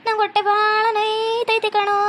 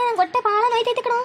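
First: ನಂಗೆ ಹೊಟ್ಟೆ dragged out in a slow mock groan; milk the complaint slowly; slow fake moan. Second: ಹೊಟ್ಟೆ wailed higher in mock agony; higher fake wail. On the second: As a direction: cry it out like a hammed-up invalid. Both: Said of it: "ನಾನ್ ಈ ಥರ ನಾಟಕ ಮಾಡ್ತಿರೋದು".

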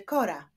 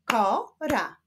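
First: Said in the usual way. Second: "Kora" split as ko, ra; syllable by syllable. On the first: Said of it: "Wyklaszczmy sylaby w wyrazie". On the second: Shown as a demonstration. Teacher showing syllables to pupils, "Kora" split in two. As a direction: clap out "Kora" in two separate beats. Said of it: "Wyklaszczmy sylaby w wyrazie kora".

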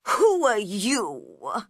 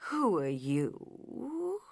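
First: Slow, louder and cold; grumpy caterpillar, pointed and loud; unfriendly. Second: Very slow, drowsy and softer; sleepy drawl of a lazy caterpillar. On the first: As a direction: demand it with open dislike. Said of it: "in a very unfriendly voice". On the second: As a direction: drag it out as if half asleep. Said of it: "in a slow, sleepy voice". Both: A narrator's reading.

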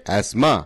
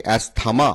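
First: অ্যাসমা with TH silent; correct pronunciation. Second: অ্যাসথামা with TH sounded; mispronounced অ্যাসথামা. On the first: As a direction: say অ্যাসমা in two syllables, as-ma. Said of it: "সঠিক উচ্চারণ হচ্ছে". (অ্যাসমা, থ অনুচ্চারিত) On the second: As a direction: say অ্যাসথামা in three syllables, as-tha-ma. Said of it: "অ্যাসথামা উচ্চারণটা সঠিক নয়". (অ্যাসথামা, থ উচ্চারণ করে) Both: Shown as a demonstration.

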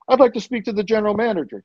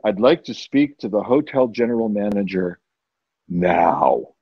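First: High, hurried guest request; fast and higher-pitched, asking for the boss; quick demand. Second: Low, controlled ultimatum; deep, no-nonsense guest at the desk; stern demand. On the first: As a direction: rattle off the request in a raised pitch. First quick request at front desk. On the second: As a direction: drop the pitch and demand it firmly. Second demand at front desk. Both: Retold or imitated.

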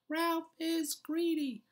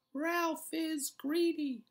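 First: Chanted, high, slow singsong taunt; chanting. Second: Chanted, high, slow singsong taunt, stress on greedy; chanting. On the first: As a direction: chant it like a playground jeer. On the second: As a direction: chant it again, leaning on greedy. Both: A narrator's reading. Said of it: "began to chant".

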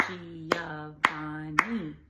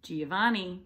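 First: Giovanni in four slow, loud beats, Gi-o-van-ni; syllable by syllable. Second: Said in the usual way. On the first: Shown as a demonstration. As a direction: stretch and separate every syllable of Giovanni. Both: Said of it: "Four syllables for Giovanni".

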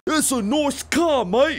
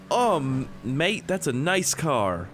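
First: Loud, high, hammed-up British accent; exaggerated British accent. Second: Put-on half-hearted, slightly higher British accent; attempted British accent. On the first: British guy praising a car, exaggerated British accent. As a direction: overdo the British, slow and squawking. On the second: British guy admiring a Viper, tentative British accent. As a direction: drag it out in a weak British accent. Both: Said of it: "insert British accent".

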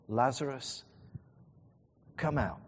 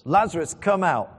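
First: Measured call, not raised; understated call. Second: Loud, higher commanding call. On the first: Jesus calling Lazarus from the tomb, understated. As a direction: call him out without raising the voice. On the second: Jesus calling Lazarus out of the tomb, loud. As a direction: call out loudly to someone inside a tomb. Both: Retold or imitated. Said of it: "he says in a loud voice".

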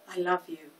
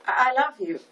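First: Softly murmured, lovestruck daze; dreamy. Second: Higher, louder startled stammer; flustered. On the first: Peggy repeats his words as she gazes at him, dreamy. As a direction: say it as if lost in his eyes. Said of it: "repeated Peggy in a dreamy tone". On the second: Florist snaps out of her daze before a customer, flustered. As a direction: blurt it, stumbling on the first word. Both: A narrator's reading.

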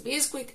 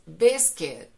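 First: Biscuit said bis-kweet; wrong biscuit. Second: Biscuit slow, louder, bis-kit; correct biscuit. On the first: Teacher demos the wrong biscuit. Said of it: "tampoco es biscuit". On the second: Teacher gives students the correct biscuit. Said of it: "es biscuit". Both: Shown as a demonstration.

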